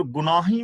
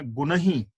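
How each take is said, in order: First: ਗੁਨਾਹੀ said with a long aa, as the mistaken form; wrong pronunciation. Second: ਗੁਨਹੀ said gun-hi, with a heavy nn and no long aa; correct pronunciation. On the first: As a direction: show ਗੁਨਾਹੀ as gu-naa-hi, the way not to read it. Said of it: "ਗੁਨਾਹੀ ਵੀ ਨਹੀਂ ਪੜਨਾ". (ਗਲਤ ਉਚਾਰਨ ਗੁਨਾਹੀ, ਲੰਮੀ ਆ ਨਾਲ) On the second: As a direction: model ਗੁਨਹੀ as gu-nə-hi, with a short unstressed middle. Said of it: "ਨੰਨੇ ਨੂੰ ਥੋੜਾ ਭਾੜਾ ਕਰ ਦੇਣਾ ਹੈ". (ਸਹੀ ਉਚਾਰਨ ਗੁਨਹੀ, ਨੰਨਾ ਭਾਰਾ) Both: Shown as a demonstration.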